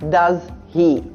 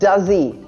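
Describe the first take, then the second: First: The two words are said separately with a break. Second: The two words run together without a break. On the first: The speaker calls it wrong. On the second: The speaker calls it right.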